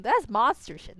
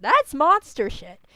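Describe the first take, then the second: First: Said in the usual way. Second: Slow, emphatic "That's", leaning on the word; "That's" hit hard, the rest drawn out; stress on THAT'S. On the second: Real, not acted. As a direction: punch "That's" and stretch the verdict out. Verdict repeated with emphasis.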